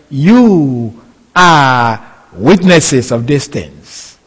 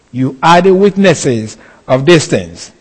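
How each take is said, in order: First: Slow, weighty reading of scripture; slow measured scripture quote; solemn slow quote. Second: Said in the usual way. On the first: Shown as a demonstration. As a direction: lay each word down slowly.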